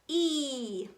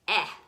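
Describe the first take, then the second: First: The vowel is said like the letter's name. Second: The vowel is a short 'eh' sound. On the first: "That's called the long vowel sound" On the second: "the short vowel sound"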